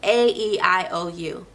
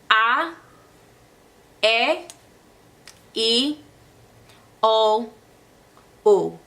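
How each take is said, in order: First: The vowels are said as English letter names. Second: The vowels are said as pure Spanish vowels. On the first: "think about the English vowels" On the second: "in Spanish, the vowels stay the same"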